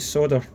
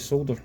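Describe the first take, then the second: First: It is said with an American accent. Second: It is said with a non-American accent.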